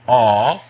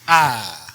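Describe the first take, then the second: First: The vowel is short. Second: The vowel is long. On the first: "the A here is pronounced as an ah sound" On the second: "a long A in Dutch is pronounced ah"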